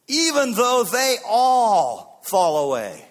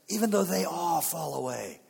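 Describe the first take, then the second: First: Slow, high, booming shout; bold boast. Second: Single out the others without shouting; pointed accusation. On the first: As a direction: shout the vow, stretching the words. Peter's boast to Jesus. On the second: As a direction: boast at conversational volume. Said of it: "he begins to point". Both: Acted.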